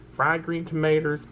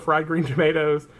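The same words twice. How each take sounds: First: Southern twang, tomatoes ending in "-ters"; Southern accent. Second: Said in the usual way. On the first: Pretend. Listing a sandwich for viewers, hammed-up Southern accent. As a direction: say "tomatoes" the down-home Southern way, as "tuh-may-ters". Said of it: "that's probably my real accent". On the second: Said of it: "I just hide it really well".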